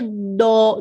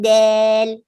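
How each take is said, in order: First: The vowel is heavy and full-mouthed. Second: The vowel is bent toward an e sound. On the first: "don't say do, do heavy" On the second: "Don't say like del, del, eh. That's called taqleel, a little bit of bending of the sound"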